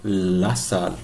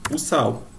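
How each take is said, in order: First: La sal, slow, with a clear final l; Spanish pronunciation. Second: O sal ending in a w sound, SAU; Portuguese pronunciation. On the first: Teacher giving the Spanish form, la sal with Spanish l. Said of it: "em espanhol". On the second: Teacher giving how we say it, o sal in Portuguese sounds. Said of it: "a gente fala em português". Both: Shown as a demonstration.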